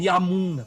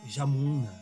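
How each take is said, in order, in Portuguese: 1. A palavra começa com som de Y. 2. A palavra começa com som de J. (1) "Eles não falam Yamuna" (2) "falam Jamuna"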